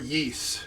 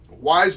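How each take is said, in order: First: The name sounds like 'ees' or 'yeest'. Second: The name sounds like the word 'wise'. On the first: This is how many other people say it. "as a lot of people call it" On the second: This is the speaker's own way of saying it. "I say Wise"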